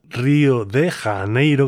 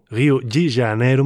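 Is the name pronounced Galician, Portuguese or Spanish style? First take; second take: Spanish; Portuguese. First: The name is pronounced with Spanish sounds. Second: The name is pronounced with Brazilian Portuguese sounds. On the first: "como se suele pronunciar en castellano" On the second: "más o menos dicen por allí"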